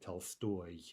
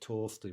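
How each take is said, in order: First: The stress is on the last syllable. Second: The stress is on the first syllable. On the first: "an in-stressed variant" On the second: "instead of"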